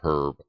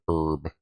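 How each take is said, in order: First: The word is said the British way. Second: The word is said the American way. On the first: "if I went to the U K, I would probably start saying herb more" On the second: "instead of herb"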